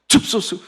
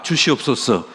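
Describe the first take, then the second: First: It is said fast with syllables squeezed together. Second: All syllables are pronounced in full.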